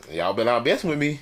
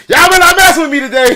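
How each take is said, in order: First: Said in the usual way. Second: Loud, high mock threat through laughter; playful shout. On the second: To his family watching online, a laughing mock shouted threat. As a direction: bellow the warning half-joking, grinning. Repeats warning, much louder, laughing.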